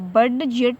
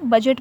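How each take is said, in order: First: The d sound is pronounced before the j. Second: The d sound is left silent before the j. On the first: The speaker calls it wrong. "बड जेट नहीं पढ़ा जाएगा" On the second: The speaker calls it right. "बल्कि क्या पढ़ा जाएगा, बजट पढ़ा जाएगा"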